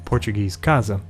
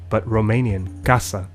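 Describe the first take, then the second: First: The middle consonant sounds like a Z. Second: The middle consonant sounds like an S. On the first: "a single S comes to sound like Z between two vowels" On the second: "aside from Spanish and Romanian"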